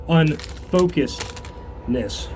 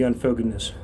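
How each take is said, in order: First: "unfocusedness" drawn out slowly, part by part; careful pronunciation. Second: Said in the usual way. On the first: Real, not acted. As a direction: sound out "unfocusedness" slowly after stumbling. Retries the awkward word slowly.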